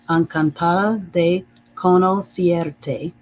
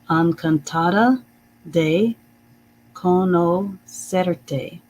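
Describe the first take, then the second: First: It has a stronger Spanish accent. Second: It has only a mild Spanish accent. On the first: The speaker calls it right. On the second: The speaker calls it wrong.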